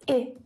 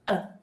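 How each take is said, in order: First: The vowel is a full short i sound. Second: The vowel is a relaxed schwa sound. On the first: "instead of it" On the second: "the vowel sound relaxes and it becomes the schwa sound"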